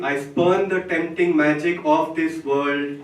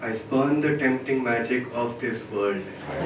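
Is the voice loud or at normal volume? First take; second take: loud; normal. First: It is spoken loudly. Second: It is spoken at normal volume. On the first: "Once more, loudly" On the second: "In a normal voice now"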